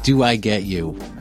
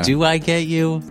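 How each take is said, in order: First: It is said as an exclamation, falling. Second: It is said as a question, rising.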